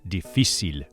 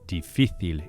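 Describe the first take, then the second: First: The c is pronounced like an s. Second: The c is pronounced like a th. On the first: "in Latin American countries, the soft C is always pronounced as an S" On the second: "instead of difícil in Spain"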